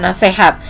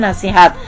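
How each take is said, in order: First: The middle syllable has an e vowel. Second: The middle syllable has an i vowel. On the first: The speaker calls it wrong. "bukan nasehat" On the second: The speaker calls it right. "sesuai ejaan bahasa Indonesia itu bicaranya nasihat"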